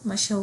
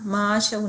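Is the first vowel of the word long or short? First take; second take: short; long. First: The first vowel is kept short. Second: The first vowel is drawn out long. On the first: The speaker calls it right. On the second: The speaker calls it wrong.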